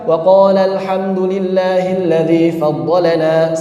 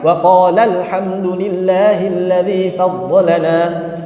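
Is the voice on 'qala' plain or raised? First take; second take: plain; raised. First: The voice on qala stays at a plain level. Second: The voice on qala is raised higher. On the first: Only one person said it. The speaker calls it wrong. "seakan-akan sendirian" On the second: Two people said it. The speaker calls it right. "Maka tinggikan"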